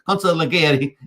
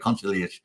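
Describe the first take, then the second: First: The word is pronounced in a careful, formal way. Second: The word is pronounced in a casual, everyday way. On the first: "as we like to say" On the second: "normally I say Consigliere"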